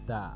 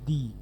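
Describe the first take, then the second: First: The vowel is a short, open 'uh' sound. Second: The vowel is a long 'ee' sound. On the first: A consonant sound follows. "Consonant থাকে তাহলে তার উচ্চারণ কি হবে?" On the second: A vowel sound follows. "আই থাকলে কি হবে?"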